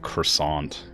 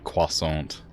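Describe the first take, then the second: First: The word is said with an American pronunciation. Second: The word is said with a non-American pronunciation.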